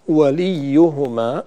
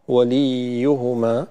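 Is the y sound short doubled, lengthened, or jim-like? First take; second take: short doubled; lengthened. First: The doubled y is clear, after a short i. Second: The i before the y is drawn out long. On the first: The speaker calls it right. "الياء هنا ياء مشددة" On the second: The speaker calls it wrong. "بالغنا في كسرة اللام فتحولت إلى ياء مدية"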